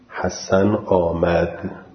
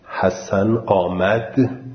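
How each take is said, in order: First: The pitch ends at the level it started. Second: The pitch rises suddenly at the end. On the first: It reports news as a statement. "وقتی میگم حسن آمد خبر میدم دیگه، اول کلام و آخر کلام مثل همه" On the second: It asks a question. "اول آروم شروع میشه ولی آخر بار یه دفعه صدا بلند میشه"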